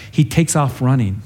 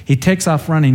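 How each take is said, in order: First: Said in the usual way. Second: Repeated with a lift on takes; a touch livelier. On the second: Shown as a demonstration. Preacher repeating how Ahimaaz dashed off, livelier. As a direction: give takes a bit more push.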